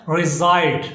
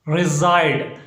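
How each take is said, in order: No difference in how they are said.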